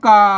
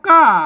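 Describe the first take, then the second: First: The syllable carries the ek tone. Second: The syllable carries the ordinary tho tone. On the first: "กาเสียงเอก" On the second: "กาอ่าเสียงโท"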